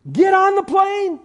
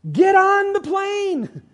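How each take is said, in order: First: High, loud urging call; high, ringing command; preaching exhortation. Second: Slower, high and loud; slowed, ringing repeat; slow emphatic repeat. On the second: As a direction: drive it home slowly. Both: Acted. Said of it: "Works is ridiculous".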